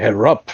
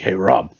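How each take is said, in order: First: Imitated German accent, hardened final consonant; retold line in a German accent. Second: Said in the usual way. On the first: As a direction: call out like an old German buddy. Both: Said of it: "like, crazy German accent".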